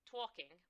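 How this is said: It is said in a New York accent.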